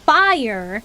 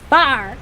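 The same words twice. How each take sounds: First: The word is said with a standard 'fire' sound. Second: The word is said like 'far'. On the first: This is how outsiders say it. "It's not fire" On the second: This is how locals say it. "anything I R is R"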